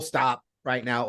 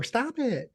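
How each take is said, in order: First: Low, slow firm command; serious low-voiced order; actual stop. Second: Light mock objection; playful stop. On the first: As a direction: drop the pitch and take it slowly, meaning it. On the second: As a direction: lift the pitch and soften it, not meaning it. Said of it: "it's total difference". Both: Shown as a demonstration.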